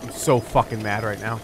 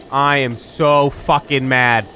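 First: Low, muttered frustration; fed up, holding the anger in; contained anger. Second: Slow, louder, every word hammered; emphatic anger. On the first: Player fed up with the game, low contained anger. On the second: Player fed up with the game, slow emphatic anger. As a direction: spell out the fury word by word. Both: Real, not acted.

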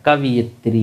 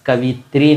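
First: कवियत्री said as ka-vi-yat-ree, with a clear ya; कवियत्री with yat sounded clearly between vi and tri; right way. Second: कवित्री said as ka-vit-ree, no ya sound; कवित्री with vi running straight into tri; wrong way. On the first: Teacher showing students the right way: कवियत्री with a clear ya. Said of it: "कवियत्री हो जाएगा". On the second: Teacher showing students the wrong way: कवित्री with no ya. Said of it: "कवित्री नहीं होता है". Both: Shown as a demonstration.

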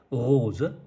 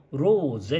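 First: ローゼ with the final ゼ weakened toward ズ; German-style ローゼ. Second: ローゼ with a full, clear final ゼ; Japanese-style ローゼ. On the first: Teacher demonstrating how Germans say rose. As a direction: stress ロー and let ゼ in ローゼ fade toward ズ. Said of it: "最後のゼはズ". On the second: Teacher showing the Japanese way of saying rose. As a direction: say both syllables of ローゼ evenly. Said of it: "ローゼっていうのは日本人だけで". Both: Shown as a demonstration.

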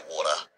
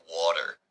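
First: "water" ending in an open "ah"; non-rhotic Australian "water". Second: "water" with the final R sounded; pronounced R in "water". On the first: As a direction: drop the final R of "water". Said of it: "I have to say water". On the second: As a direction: say "water" rhotic, American-style. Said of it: "'cause I don't say water". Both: Shown as a demonstration.

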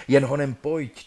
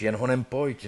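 First: Jen punched louder at the start; stress on jen. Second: Said in the usual way. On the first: Acted. Dead man hurrying his bride, stress on Jen. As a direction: hit the word Jen, urging.

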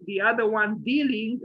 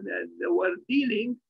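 First: Dealing underlined with a firm push; stress on dealing. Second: Said in the usual way. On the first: Shown as a demonstration. Lecturer stressing dealing to the class, underlined. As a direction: lean on the word dealing, set it apart. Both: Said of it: "and I underline the word".

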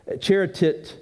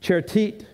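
First: "charitit" said CHAR-i-tit, falling at the end; Greek word demo. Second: "charitit" said CHAR-i-tit, rising at the end; Greek word demo. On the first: Pastor teaching the congregation the Greek word, falling tone. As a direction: sound out "charitit" slowly, tune dropping. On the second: Pastor repeating the Greek word for the church, rising tone. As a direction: repeat "charitit" with a questioning lift. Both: Shown as a demonstration. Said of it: "is the way you say it".

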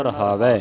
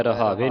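First: ਰਹਾਵੈ ending in open "ai"; corrected ending. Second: ਰਹਾਵੇ ending in closed e; wrong ending. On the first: Teacher correcting the reading, ਰਹਾਵੈ with open ai ending. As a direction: end ਰਹਾਵੈ on a rising ai. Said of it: "ਰਹਾਵੇ ਨਹੀਂ ਪੜਨਾ". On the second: Teacher showing the misreading, ਰਹਾਵੇ with e ending. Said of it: "ਨਹੀਂ ਪੜਨਾ". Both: Shown as a demonstration.

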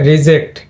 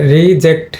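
First: রিজেক্ট with a short i in the first syllable; short first vowel. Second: রিজেক্ট with a long ee in the first syllable; long first vowel. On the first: Teacher showing students the short first syllable, short i in রিজেক্ট. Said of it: "প্রথম সিলেবলে কিন্তু short ই". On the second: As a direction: stretch the first vowel of রিজেক্ট, ree-ject. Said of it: "প্রথম সিলেবলে কিন্তু long ই sound create হয়েছে". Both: Shown as a demonstration.

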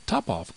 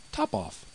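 First: "Top off," cried in disbelief. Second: Cool. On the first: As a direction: exclaim "Top off," in astonishment. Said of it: "cried the mouse". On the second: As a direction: say "Top off," coolly and flat, falling at the end. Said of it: "quite coolly". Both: A narrator's reading.

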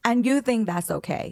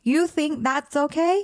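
First: Slow, pointed, stress on "you", falling; incredulous. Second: Much higher, slow, rising on "okay"; outraged disbelief. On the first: Host challenging the cheating boyfriend, disbelieving and slow. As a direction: lean hard on "you" and let it drop in disbelief. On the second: Host repeating the question to the boyfriend, high and outraged. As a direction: push "okay" up high like you can't believe it. Reacting to cheating boyfriend's excuse. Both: Acted.

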